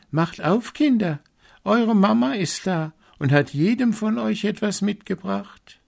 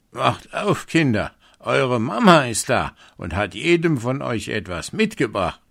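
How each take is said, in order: First: Wolf's voice made high and sweet, much higher; bright wolf voice. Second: Wolf faking mother, lightly rough and a bit higher; a hint of a gruff wolf posing as mother. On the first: Wolf after eating chalk, imitating mother in a high voice. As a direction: sing it high like a fake mother. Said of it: "und seine Stimme wurde hell". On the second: Wolf at the door pretending to be mother, lightly rough. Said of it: "an der rauen Stimme, dass es der Wolf war". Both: A narrator's reading.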